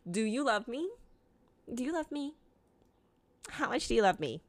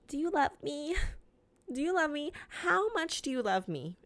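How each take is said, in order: First: Softer, higher clingy asking; needy pleading. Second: Clingy, softer, higher pleading; needy pleading. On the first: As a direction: whine for reassurance again. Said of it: "I'll literally ask that three times a day". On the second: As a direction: beg for reassurance like a clingy partner. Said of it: "I always say". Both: Retold or imitated.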